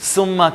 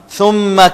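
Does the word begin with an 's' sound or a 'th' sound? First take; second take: s; th. First: The word begins with an 's' sound. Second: The word begins with a 'th' sound. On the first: The speaker calls it wrong. "हम सुम्मा कहते हैं जो कि गलत है" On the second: The speaker calls it right. "सा के नीचे यहां पर आप लाइन लगा लें"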